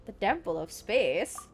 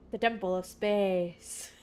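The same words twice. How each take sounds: First: Lightly mannered, wavering pitch; put-on watcher voice. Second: Slow, grand pronouncement; put-on watcher voice. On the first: Streamer retrying the watcher's line, mildly put-on voice. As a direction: play with the tune of the title. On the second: Streamer replaying the watcher's line, slow mock-solemn voice. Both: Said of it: "why I'm talking like that".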